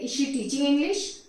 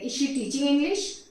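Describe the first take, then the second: First: It is said with a questioning tune. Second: The same.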